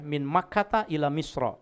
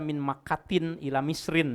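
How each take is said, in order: First: The place names end in a bare vowel. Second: The place names end in an added n. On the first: The speaker calls it right. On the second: The speaker calls it wrong.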